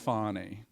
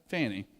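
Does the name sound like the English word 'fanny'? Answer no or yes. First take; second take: no; yes. First: The name is said unlike the word 'fanny'. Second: The name is said like the word 'fanny'. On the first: This is how the name's owner says it. The speaker calls it wrong. "she's like, we'll call it Fannie" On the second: This is how the spelling reads where the speaker is from. The speaker calls it right. "No, it's Fannie. It's F A N I"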